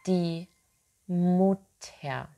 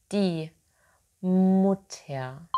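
The two takes are said the same way.

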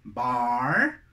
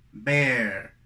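First: "Bar" with long open ah; contrast drill. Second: "bear" with an E vowel, falling; contrast drill. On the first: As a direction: stretch "Bar" on a wide ah. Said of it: "Entonces ya tenemos dos". ("Bar" con A abierta y larga) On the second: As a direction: punch "bear" on a clear eh. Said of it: "Es una E". ("bear" con vocal E) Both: Shown as a demonstration.

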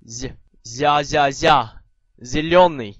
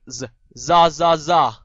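First: Za said "zya", palatalized; soft Z. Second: Plain buzzing z in za, za, za; hard Z. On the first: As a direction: drill za slowly with a y-glide, then zillioni. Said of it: "軟音z". (軟音z，za加耶音慢讀) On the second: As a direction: drill za slowly and loudly, no glide. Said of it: "硬音z". (硬音z，慢慢大聲讀za) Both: Shown as a demonstration.

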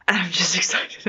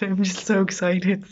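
First: Said in the usual way. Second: Excited secret whisper. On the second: Real, not acted. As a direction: breathe it out like a secret. Repeats excitement, then whispers it.

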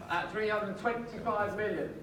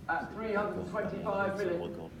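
The two takes are said the same way.

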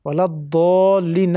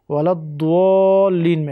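First: الضالین as "ad-doo-lin", long pure vowel; correct recitation. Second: الضالین drawn out as "ad-duooo-lin"; mispronounced with waw. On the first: Teacher modelling the Fatiha correctly, no inserted w. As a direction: hold الضالین long without any u glide. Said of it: "نمیگه". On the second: Teacher imitating student's Fatiha recitation, wrongly added w sound. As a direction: slip a u glide into الضالین, held long. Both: Shown as a demonstration.

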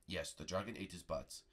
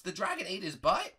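First: Low, soft master, falling end; solemn confirmation. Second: Put-on high boyish disbelief, rising end; shocked question. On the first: Pretend. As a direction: confirm it gravely in a deep voice. Prego confirms the tale. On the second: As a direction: repeat it as an astonished question. Bart is shocked by Prego's tale.

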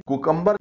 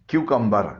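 First: कुकम्बर starting plain "koo"; wrong pronunciation. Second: क्यूकम्बर starting "kyoo"; correct pronunciation. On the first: Teacher warning learners off कुकम्बर with "koo". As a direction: say कुकम्बर as koo-kum-ber, no y glide. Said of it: "इसे कुकम्बर न बोलिएगा". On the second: Teacher modelling for learners, क्यूकम्बर with y glide. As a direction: say क्यूकम्बर as KYOO-kum-ber. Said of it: "इसका सही तलफ़ुज़ है". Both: Shown as a demonstration.

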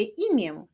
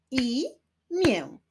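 First: Said in the usual way. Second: "Imię" split as I-mię, pitched higher; syllable by syllable. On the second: Shown as a demonstration. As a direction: clap out "Imię" with a pause between halves. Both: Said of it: "Wyklaszczmy sylaby w wyrazie imię".

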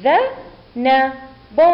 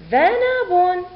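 First: Very slow with clear pauses; teacher's separated sounding-out; syllable by syllable. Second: ذنب joined as one high word; teacher's clear, high whole-word model; blended word reading. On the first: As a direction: break ذنب into dha - na - bun. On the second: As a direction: read dhanabun in one piece. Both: Shown as a demonstration. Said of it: "ونقرأ".

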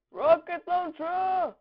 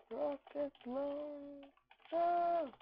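First: High, loud weapon call; battle cry. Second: Softer, very slow, stretched syllables; drawn-out call. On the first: Gamer announcing the rocket launcher, battle cry. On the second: Gamer echoing his rocket launcher call, drawn-out and soft. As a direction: stretch it out slowly and softly. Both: Pretend.

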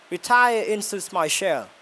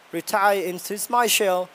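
No difference in how they are said.

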